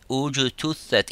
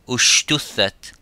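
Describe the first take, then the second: First: The consonant is a voiced 'j' sound. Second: The consonant is a voiceless 'sh' sound. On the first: The speaker calls it right. "if you wanted to sound uh, letter uh" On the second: The speaker calls it wrong. "instead of saying"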